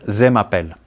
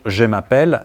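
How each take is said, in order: First: The first word begins with a 'z' sound. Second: The first word begins with a 'zh' sound. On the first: The speaker calls it wrong. "les Grecs ... ont la tendance de dire ... ze m'appelle" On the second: The speaker calls it right. "au lieu de dire je m'appelle"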